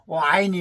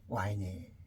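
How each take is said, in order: First: It is said loudly and flatly, without feeling. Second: It is said softly with tender feeling. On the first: The speaker calls it wrong. "이렇게 크게 귀에다 대고 그냥 아이니 해야 되느냐? 아니죠" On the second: The speaker calls it right. "와이니 이렇게 감정을 좀"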